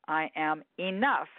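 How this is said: The stress falls on the word enough.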